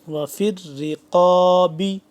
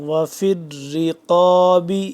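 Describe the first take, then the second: Both takes have the same delivery.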